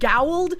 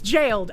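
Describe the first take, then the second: First: The word begins with a hard G sound. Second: The word begins with a J sound. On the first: "I feel like it absolutely should be pronounced gowled" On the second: "but it's jailed"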